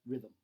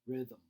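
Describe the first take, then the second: No difference in how they are said.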